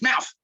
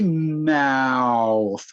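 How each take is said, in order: First: The word is said quickly. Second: The word is drawn out slowly. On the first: "Say it fast" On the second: "Say it slowly"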